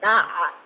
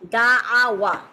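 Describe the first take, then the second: First: The word ends with a long 'a' sound. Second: The word ends with a 'wa' sound. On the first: The speaker calls it right. "ওয়াওটা ড্রপ করে ওয়াওটার পরিবর্তে হচ্ছে জাস্ট একটা আলিফ অ্যাড করে" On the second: The speaker calls it wrong. "অ্যারাবরা হচ্ছে দা আ ওয়া এরকম ভাবে উচ্চারণ না করে"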